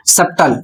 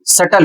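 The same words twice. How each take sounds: First: सप्टल with the b sounding as p; wrong pronunciation. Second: सटल with the b silent, "suttle"; correct pronunciation. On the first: Teacher mimics the wrong subtle for students. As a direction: say सप्टल as "sup-tul". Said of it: "सप्टल उच्चारण नहीं करना है". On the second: Teacher gives students the right subtle. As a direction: say सटल as "sut-tul", no b. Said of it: "सही उच्चारण सटल होता है". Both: Shown as a demonstration.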